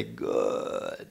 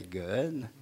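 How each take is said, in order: First: "good" dropped much lower and stretched long like a Southern drawl; a down-south "good" pulled long; drawn-out southern good. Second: Said in the usual way. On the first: Shown as a demonstration. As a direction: sink into "good" and stretch it to three syllables. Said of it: "like you're down south where it has three syllables". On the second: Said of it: "You just can't say".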